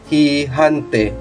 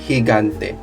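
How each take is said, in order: First: Both G sounds are sounded like an H. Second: Only the first G is sounded like an H. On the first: The speaker calls it wrong. "or uh, hihante" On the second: The speaker calls it right. "but it's higante because we follow the, the rule here"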